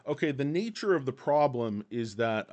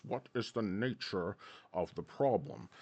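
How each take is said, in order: First: Said in the usual way. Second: A British boss demanding an answer; British accent. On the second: Retold or imitated. The boss questions the young man, lightly British. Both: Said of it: "stop with the accent".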